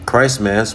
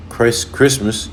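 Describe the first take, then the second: First: "Christ Mass" as two words, with a clear break between Christ and Mass; split Christ Mass. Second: Said in the usual way. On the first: Shown as a demonstration. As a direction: stress the parts of "Christ Mass" apart.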